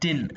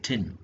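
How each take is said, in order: First: The t is released without a puff of air. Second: The t is released with a puff of air. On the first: This is how local speakers say it. "നമ്മൾ tin എന്നേ പറയത്തുള്ളൂ" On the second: Local speakers do not say it this way. "You വോണ്ട് say tin"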